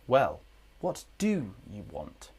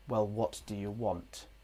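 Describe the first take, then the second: First: The word 'do' is stressed and full. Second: The word 'do' is unstressed and reduced. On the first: "with emphasis we must use the strong form" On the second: "If there was no emphasis on do"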